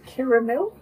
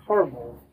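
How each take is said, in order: First: "caramel" said as CARE-uh-mel, three syllables. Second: "caramel" squeezed into two syllables, CAR-mul. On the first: Questioning which way they said it, "caramel" as CARE-uh-mel. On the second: Offering the other way, "caramel" as CAR-mul. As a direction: say "caramel" as CAR-mul, dropping the middle vowel. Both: Shown as a demonstration. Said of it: "Did you say caramel or caramel".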